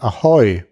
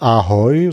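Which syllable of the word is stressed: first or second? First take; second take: second; first. First: The stress is on the second syllable. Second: The stress is on the first syllable. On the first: The speaker calls it right. "die Betonung liegt auf der zweiten Silbe" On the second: The speaker calls it wrong. "also nicht Ahoi"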